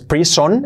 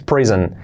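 First: The last vowel is a full O sound. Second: The last vowel is reduced toward E. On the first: The speaker calls it wrong. "No es prison" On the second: The speaker calls it right. "Casi la O casi se omite, hace un pequeño efecto E"

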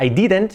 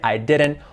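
First: The word I sounds like a short E. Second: The word I sounds like eye. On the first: The speaker calls it wrong. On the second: The speaker calls it right.

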